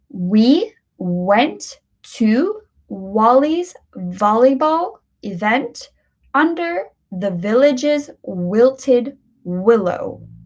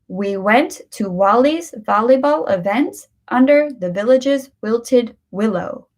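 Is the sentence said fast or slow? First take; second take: slow; fast. First: The sentence is spoken slowly. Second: The sentence is spoken more quickly. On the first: "Let's do this one slow" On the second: "Let's do it a little quicker now"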